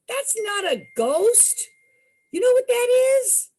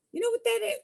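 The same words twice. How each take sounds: First: Higher, louder, quick teasing question; amused local teasing; teasing storekeeper. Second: Said in the usual way. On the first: Retold or imitated.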